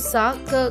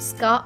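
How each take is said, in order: First: A vowel separates the two consonant sounds. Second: The two consonants blend together without a vowel. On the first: The speaker calls it wrong. "సా క కాకుండా" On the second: The speaker calls it right. "స్కా అవుతుంది"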